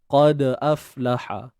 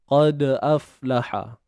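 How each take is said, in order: First: The d is stopped with a bounce before the glottal vowel. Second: The same.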